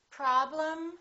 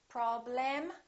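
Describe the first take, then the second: First: The second vowel is reduced to a weak um. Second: The second vowel is fully pronounced as a clear vowel. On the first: The speaker calls it right. "Repeat after me" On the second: The speaker calls it wrong. "Don't say"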